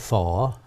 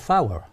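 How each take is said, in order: First: The word is said like standard 'for'. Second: The word is said like dialect 'fower'. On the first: This is the form the speaker does not use. "I don't say for" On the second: This is the speaker's own local form. "I say fower. F O W E R"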